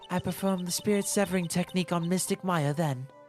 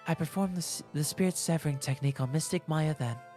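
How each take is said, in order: First: It is said in a harder, non-soft voice. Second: It is said in a soft voice.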